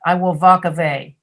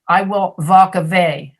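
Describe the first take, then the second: First: The w sounds are said like v. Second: The same.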